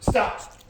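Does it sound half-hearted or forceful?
forceful. It sounds sudden, sharp and offended.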